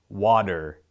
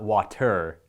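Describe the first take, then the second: First: The middle consonant sounds like a D. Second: The middle consonant sounds like a T. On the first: "listen to me say water" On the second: "It's not water"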